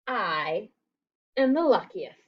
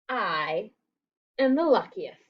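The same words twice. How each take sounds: First: The word I is emphasized. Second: The same.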